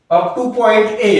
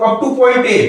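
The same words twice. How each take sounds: First: Slowed right down so students can write it; slow teacher dictation pace. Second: Said in the usual way. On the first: Shown as a demonstration. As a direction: spell it out slowly, word by word.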